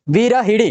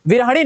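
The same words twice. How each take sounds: First: विरहिणी with hi before the ending; corrected i vowel. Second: विरहणी with ha before the ending; mistaken a vowel. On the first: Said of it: "छोटी की मात्रा". (विरहिणी, हि में छोटी इ) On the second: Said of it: "नहीं होगा". (विरहणी, ह बिना मात्रा) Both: Shown as a demonstration.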